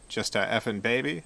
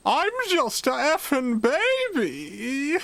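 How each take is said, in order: First: It is said in his normal voice. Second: It is said in a put-on baby voice.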